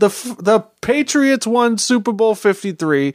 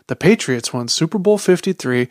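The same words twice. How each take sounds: First: It is read in a Boston accent. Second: It is read in a Los Angeles accent. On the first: "why was I reading that in the Boston voice?" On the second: "you got to say it with that accent. ... That's the voice"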